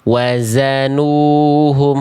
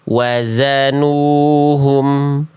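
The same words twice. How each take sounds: First: The second consonant is a hissing 'z' sound. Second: The same.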